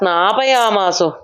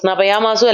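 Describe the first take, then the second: First: The vowel after 'sn' is long. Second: The vowel after 'sn' is short. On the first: The speaker calls it right. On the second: The speaker calls it wrong.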